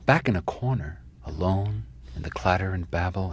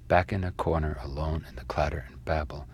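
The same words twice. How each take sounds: First: It is read with heavy, dramatic expression. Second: It is read flatly, with no expression. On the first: The reader's interpretation is imposed on the line. "some other histrionic interpretation" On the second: Only the sound pattern of the line is conveyed. "read it as if it has no meaning, but only read it for its physical pattern"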